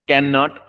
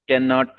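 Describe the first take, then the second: The two takes are said the same way.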